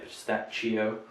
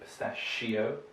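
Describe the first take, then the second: First: The 'ch' is not said as sh. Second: The 'ch' is said as sh. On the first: The speaker calls it wrong. "We don't say pistachio" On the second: The speaker calls it right. "this is another sh"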